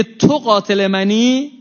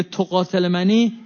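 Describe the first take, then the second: First: تو stressed and drawn out, slow rising; slow, weighty تو; stress on you. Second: منی stressed with a rise; rising منی at the end. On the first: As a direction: lean hard on تو in «تو قاتل منی». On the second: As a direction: land the weight on منی in «تو قاتل منی». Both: Shown as a demonstration. Quote repeated with new stress.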